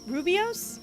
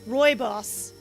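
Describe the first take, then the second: First: The first syllable sounds like 'roo'. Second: The first syllable sounds like 'roy'. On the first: The speaker calls it wrong. "I definitely say it wrong" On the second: The speaker calls it right. "I've been saying it wrong this whole time"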